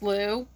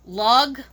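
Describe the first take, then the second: First: The word ends on a vowel sound. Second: The word ends with a hard g sound. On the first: The speaker calls it right. "but it's Lu" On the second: The speaker calls it wrong. "they kept calling the god"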